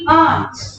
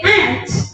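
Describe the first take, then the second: First: The vowel is a long open 'ah'. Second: The vowel is short, like in 'ant'. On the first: "It's actually aunt" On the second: "In American English, you say ant"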